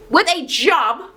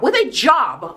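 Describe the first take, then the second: First: "With a job" drawn out slow, leaning on "With"; slow emphatic repeat. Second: Said in the usual way. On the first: Shown as a demonstration. Telling the viewers what to look for, slow emphatic "With a job". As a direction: spell out "With a job" slowly so it sinks in.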